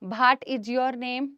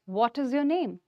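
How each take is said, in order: First: It is said in an unpolished, local-sounding accent. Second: It is said in a polished English accent. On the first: The speaker seems to lack polish. The speaker calls it wrong. "पानी कम है यहाँ थोड़ा सा" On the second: The speaker seems refined and fluent. The speaker calls it right. "आपको एक लहजा, एक accent समझ में आया बोलने वाले का"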